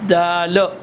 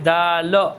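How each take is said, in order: Both takes have the same delivery.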